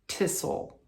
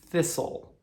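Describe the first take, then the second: First: The word begins with a hard t sound. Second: The word begins with a soft th sound. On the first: The speaker calls it wrong. "I couldn't pronounce th ... it would come out" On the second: The speaker calls it right. "as in thirsty or um, threat or uh, thistle"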